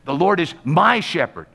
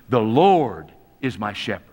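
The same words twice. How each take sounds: First: The stress is on the word my. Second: The stress is on the word Lord.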